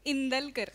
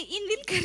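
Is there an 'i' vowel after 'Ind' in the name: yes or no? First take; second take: no; yes. First: No 'i' vowel follows 'Ind' in the name. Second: An 'i' vowel follows 'Ind' in the name. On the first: The speaker calls it right. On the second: The speaker calls it wrong. "इंदिलकर नाही"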